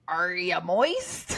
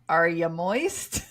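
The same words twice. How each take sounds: First: It is said in a Mister Krabs voice. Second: It is read in the speaker's normal voice.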